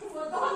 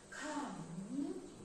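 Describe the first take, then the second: First: It is said harshly with a high pitch. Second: It is said softly with a gentle voice.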